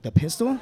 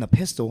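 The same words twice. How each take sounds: First: PISTOL pitched high, rising in disbelief; incredulous echo. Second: Said in the usual way. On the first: Acted. Marine echoing buddy's confession, incredulous rise on "pistol". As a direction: ask "pistol" back as a stunned question. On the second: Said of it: "And he says".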